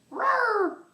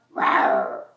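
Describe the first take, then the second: First: Squeaky high little roar; high dinosaur roar. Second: Deep, loud growling roar; low dinosaur roar. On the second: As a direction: drop way down for a big dinosaur roar. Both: Pretend. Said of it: "roar like a dinosaur".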